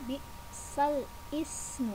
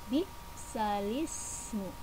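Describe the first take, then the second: First: Ismu begins separately with its own vowel onset. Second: The l joins straight onto the following vowel. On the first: The speaker calls it wrong. "cara bacanya bukan" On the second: The speaker calls it right. "bukan ismu tapi lismu"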